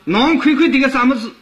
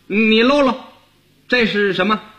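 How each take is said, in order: First: It is said in Shanghainese. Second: It is said in Beijing dialect. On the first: "到上海话又不同了" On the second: "你要用北京话说就跟这不一样了"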